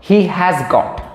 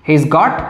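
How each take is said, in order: First: 'Has' is said as a separate full word. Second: 'Has' is contracted and joined onto 'he'. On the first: "হি হ্যাজ got বলতে পারো, অসুবিধা নেই" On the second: "এরকমভাবে বলবে তাহলে একটু smart sound করবে"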